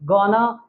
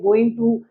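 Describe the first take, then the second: First: The words are merged into one short word. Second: Both words are said fully and separately.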